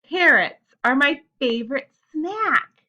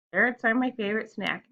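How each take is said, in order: First: Loud, higher, slow excited exclamation; more expression. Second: Said in the usual way. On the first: Shown as a demonstration. Teacher showing pupils an exclamation sentence, excited expression. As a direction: announce it with big emphatic feeling. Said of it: "saying it with more expression and feeling". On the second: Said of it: "you're not just gonna be like".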